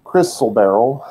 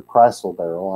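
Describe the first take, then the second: First: Crystal with a short i, KRISS-tul beryl; first pronunciation. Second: Crystal with a long i, CRY-stul beryl; alternative pronunciation. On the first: Teacher unsure of the gem's name, trying crystal with a short i. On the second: Teacher offering another way to say the gem, crystal with a long i. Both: Shown as a demonstration. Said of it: "not sure how you pronounce that word".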